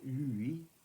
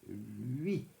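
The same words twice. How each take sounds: First: The U is a full separate vowel. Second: The U is a glide before the I. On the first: The speaker calls it wrong. "On ne dit pas lui" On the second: The speaker calls it right. "mais bien lui, entraînant le U"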